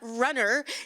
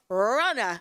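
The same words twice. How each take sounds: First: The word is said in a general accent. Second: The word is said in a Boston accent. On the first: The speaker calls it wrong. "it's not runner" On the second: The speaker calls it right. "You have to say it with a Boston accent"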